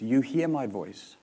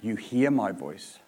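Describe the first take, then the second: First: Slow, stressed hear, falling like a statement; You hear my voice, deliberate with a settled fall; firm statement. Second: Slow, stressed my; You hear my voice, unhurried with a settled fall; firm statement. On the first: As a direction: say You hear my voice as a certainty, hear leaned on. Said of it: "This is not a question, this is a statement". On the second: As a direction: lay You hear my voice down as a certain fact. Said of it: "It's not a question, it's a statement". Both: Shown as a demonstration.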